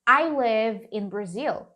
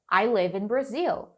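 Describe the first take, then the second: First: Slow, even model phrase for students to repeat; slow model sentence. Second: Said in the usual way. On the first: Shown as a demonstration. Teacher modelling a sentence for her class to repeat, said slowly. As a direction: spell it out slowly so the class can echo it. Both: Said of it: "Repeat after me".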